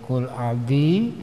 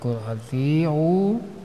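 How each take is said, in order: First: The consonant is said as a soft d. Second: The consonant is said as a t. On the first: The speaker calls it wrong. "ketika dibaca kul aldi" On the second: The speaker calls it right. "bukan kul altiu"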